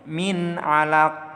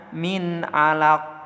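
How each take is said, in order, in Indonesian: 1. Kata terakhir berakhir dengan konsonan hambat tanpa vokal. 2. Kata terakhir berakhir dengan konsonan hambat tanpa vokal.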